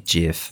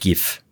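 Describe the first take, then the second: First: The word is pronounced the English way. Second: The word is pronounced the German way. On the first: "the proper English pronunciation would be GIF" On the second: "In German, I would call it GIF"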